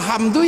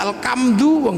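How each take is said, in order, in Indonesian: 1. Dilafalkan dengan bunyi h Arab. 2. Dilafalkan dengan bunyi k sebagai gantinya.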